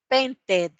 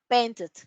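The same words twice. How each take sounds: First: The ending vowel sounds like a clear 'ee'. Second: The ending vowel sounds like a short 'eh'. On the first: The speaker calls it wrong. "no va a ser painted" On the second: The speaker calls it right. "sino painted ... la pronunciación es e, no es i"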